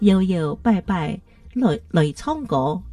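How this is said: It is said in Sixian Hakka accent.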